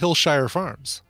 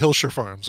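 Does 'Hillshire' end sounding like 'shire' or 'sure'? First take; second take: shire; sure. First: The ending sounds like 'shire'. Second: The ending sounds like 'sure'. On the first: The speaker calls it right. "but we say" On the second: The speaker calls it wrong. "We don't say"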